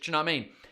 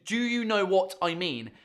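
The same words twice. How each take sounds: First: The words are reduced and run together. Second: Each word is said clearly and separately.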